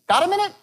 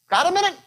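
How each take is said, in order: The two takes are said the same way.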